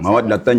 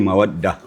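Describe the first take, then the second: First: The word ends with a '-tan' syllable. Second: The word ends with an 'h' sound. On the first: The reciter continues without stopping. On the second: The reciter stops on this word.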